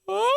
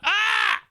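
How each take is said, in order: First: It sounds like an unnatural, Ron Burgundy-like scream. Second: It sounds like a natural, real scream.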